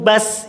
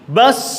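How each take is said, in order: First: The final sound has little audible hiss. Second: The final sound has a clear hiss of air. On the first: The speaker calls it wrong. "bas itu kurang" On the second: The speaker calls it right. "nampak desis dan suara lepas"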